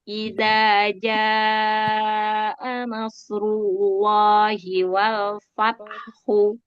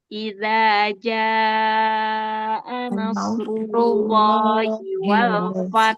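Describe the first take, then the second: First: The last word ends with a short u vowel. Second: The last word ends on a breathy h consonant. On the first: "hunya tetap dibaca" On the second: "sekarang tanpa hu, tanpa domah"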